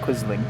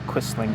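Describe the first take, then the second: First: The middle consonant is a buzzing z sound. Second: The middle consonant is a hissing s sound. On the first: The speaker calls it right. "I imagine the S is the Z sound" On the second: The speaker calls it wrong. "not Quisling"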